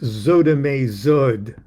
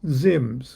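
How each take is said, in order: First: Extra vowels follow each consonant, giving several syllables. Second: It is one short syllable with no added vowels. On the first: This follows an older tradition's pronunciation key. "Let's just call it Zodame Zod" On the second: This is the word as it is simply written. "When it's just Zims"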